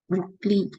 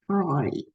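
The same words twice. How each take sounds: First: The name is pronounced the English way. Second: The name is pronounced the French way. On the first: "some people will pronounce in English name" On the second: "in French, they they I think pronunciation is broad"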